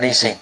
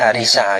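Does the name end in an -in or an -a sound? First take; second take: -in; -a. First: The name ends with an -in sound. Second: The name ends with a plain -a sound. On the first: The name is treated as taking nunation. "masrufun ditanwin kan akan dia harisin" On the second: The name is treated as not taking nunation. "mana'a sarfahu, mereka yang menengkah lah ya yaman akan tanwinnya tanwin bagi aris, jadi baca arisa"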